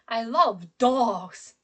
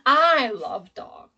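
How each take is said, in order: First: The stress falls on the word dogs. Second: The stress falls on the word I. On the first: Dogs are what is loved. "I pronounce the word dog stronger, higher, louder" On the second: The speaker, not someone else, loves dogs. "my emphasis and my stress is on I in this sentence"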